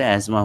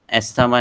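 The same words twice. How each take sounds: First: अस्थमा as az-ma, th silent; correct pronunciation. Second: अस्थमा with the th sounded, as-th-ma; wrong pronunciation. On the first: Lecturer teaching students the right अस्थमा, th silent, az-ma. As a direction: say अस्थमा with the th dropped, az-ma. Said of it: "टीएच silent है इधर". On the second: Lecturer showing students the mispronounced अस्थमा, th spoken aloud. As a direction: say अस्थमा the wrong way, th fully pronounced. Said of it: "अस्थमा नहीं बोलते". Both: Shown as a demonstration.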